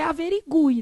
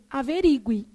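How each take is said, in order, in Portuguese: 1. A tonicidade recai na sílaba 'gu'. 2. A tonicidade recai na sílaba 'ri'. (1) "o certo é averigue" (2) "Não existe o quê?"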